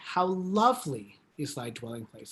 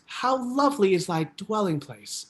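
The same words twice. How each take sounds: First: The word lovely carries the emphasis. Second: The words dwelling place carry the emphasis. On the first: "the word lovely, we can make that lovely" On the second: "Or you can put the emphasis on dwelling place"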